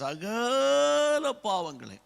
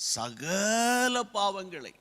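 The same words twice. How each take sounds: First: The phrase is said forcefully, with strong emphasis. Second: The phrase is said plainly, without extra force.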